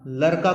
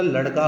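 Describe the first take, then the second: First: लड़का with plain r for ड़; wrong pronunciation. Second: लड़का with a retroflex flapped ड़; correct pronunciation. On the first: Teacher rejects the misspelt word, mispronounced. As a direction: say लड़का as "larka". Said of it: "कुछ नहीं होता". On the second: Teacher corrects the misspelt word, correctly pronounced. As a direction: flap the ड़ in लड़का, not an r. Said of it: "लड़का होता है". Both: Shown as a demonstration.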